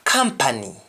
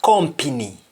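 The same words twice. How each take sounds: First: "Company" said KAM-pa-ny, with "ah"; English-style "Company", open "ah" first; English pronunciation. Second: "company" said KOM-pi-ny, with O; Jamaican pronunciation. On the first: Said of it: "in English". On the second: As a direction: say "company" the Patois way, as kompini. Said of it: "in Jamaican". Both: Shown as a demonstration.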